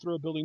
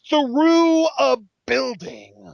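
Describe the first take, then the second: First: It is said flatly, without extra emphasis. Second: It is said with strong, dramatic emphasis. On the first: It sounds like an ordinary detail. The speaker calls it wrong. "It can't just be" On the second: It sounds like an outrageous, remarkable detail. The speaker calls it right. "we can't say it without adding that emphasis"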